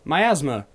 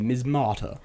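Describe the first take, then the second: First: The word is said as mi-AS-ma. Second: The word is said as mis-MA-ta. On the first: The speaker calls it right. "How did I not read that as miasma?" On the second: The speaker calls it wrong. "I've been saying that wrong for ages. Mi what was I saying?"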